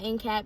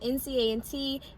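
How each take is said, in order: First: The letters run straight from A to T. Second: An 'and' sound is spoken between A and T. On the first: The speaker calls it wrong. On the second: The speaker calls it right.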